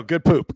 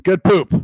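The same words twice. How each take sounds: First: Said in the usual way. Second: Louder praise for the good poop; louder cheer. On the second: Real, not acted. DM praising the player's roll, louder cheer. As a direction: bump it up, cheering. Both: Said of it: "DM cheering the roll".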